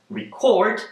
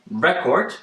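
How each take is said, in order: First: The stress is on the second syllable. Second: The stress is on the first syllable. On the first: It is a verb. "put a stress on the second syllable" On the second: It is a noun. "with a stress on R E"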